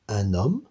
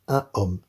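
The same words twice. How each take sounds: First: The n sound links into the following vowel. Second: The article and noun are said separately, without linking. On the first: The speaker calls it right. "On devra faire la liaison, c'est obligatoire" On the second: The speaker calls it wrong. "On ne pourra pas dire"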